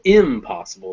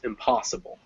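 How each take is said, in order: First: The stress is not on the pos syllable. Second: The stress is on the pos syllable. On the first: The speaker calls it wrong. "we would never go impossible" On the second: The speaker calls it right. "It's impossible"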